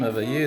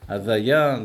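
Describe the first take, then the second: First: The word ends in an 'eh' vowel. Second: The word ends in an open 'ah' vowel. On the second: "les Sfaradim"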